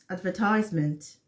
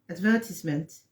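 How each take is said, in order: First: It is said with an American pronunciation. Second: It is said with a British pronunciation. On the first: "is American" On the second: "is a British"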